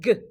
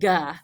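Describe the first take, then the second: First: The consonant sound is clipped with no vowel. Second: The consonant sound ends with an added 'uh'. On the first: The speaker calls it right. "it's G" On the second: The speaker calls it wrong. "not ga"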